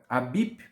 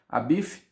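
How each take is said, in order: First: The name ends with a P sound. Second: The name ends with an F sound. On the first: The speaker calls it wrong. "Não é Abip" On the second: The speaker calls it right. "pronúncia correta do seu nome é Hiram Abif"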